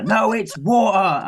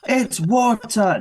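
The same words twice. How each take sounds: First: High, drawn-out "water" with the T dropped; stubborn sibling retort, glottal stop in "water"; mock shouted contradiction. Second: High, stretched "water" with the T sounded; drawn-out sibling yell, T hit in "water"; mock child's yell. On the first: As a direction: imitate a kid yelling back wa'er for "water". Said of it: "screaming at each other". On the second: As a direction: imitate a kid insisting slowly on the T in "water". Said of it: "Faye's yelling at him".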